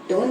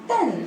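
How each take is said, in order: First: The syllable has a long 'oh' vowel. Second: The syllable has a short 'uh' vowel. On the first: The speaker calls it wrong. "टोन नहीं" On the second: The speaker calls it right.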